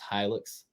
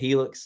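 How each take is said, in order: First: The name is said as hi-lux. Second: The name sounds like the word helix. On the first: The speaker calls it right. "It's Hilux" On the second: The speaker calls it wrong. "some people pronounce it Helix. I even said that in the video, but I got corrected"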